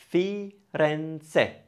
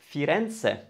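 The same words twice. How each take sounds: First: "Firenze" split as Fi, ren, ze; syllable by syllable. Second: Said in the usual way. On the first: Shown as a demonstration. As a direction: sound out "Firenze" in three separated beats. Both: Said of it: "Three syllables".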